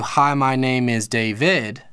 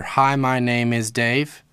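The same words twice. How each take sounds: First: "Hi, my name is David" slow, with "David" split into two beats; new accent pattern. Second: "Hi, my name is Dave" slow, beats marked on "Hi" and "Dave", rising at the end; accent pattern demo. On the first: Teacher contrasting a longer name's pattern, slow. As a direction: spell out "Hi, my name is David" slowly with the extra syllable. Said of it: "a whole different syllable and accent pattern". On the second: Teacher showing a student the accent pattern, slow. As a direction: tap out "Hi, my name is Dave" slowly, beat by beat. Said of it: "there's my accent pattern".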